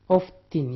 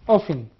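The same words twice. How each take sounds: First: The t sound is clearly said. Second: The t sound is left out. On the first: "There is a sound for the letter t" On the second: "pronounced without t"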